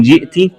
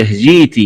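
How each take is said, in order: First: Said in the usual way. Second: جيت said "jeeti"; long ee in جيت, no glottal stop; hamza as ya. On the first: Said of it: "قرأها بإبدال الهمزة". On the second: Shown as a demonstration. Teacher showing the variant, جيت with smooth long ee. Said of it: "بإبدال الهمزة ياء مادية".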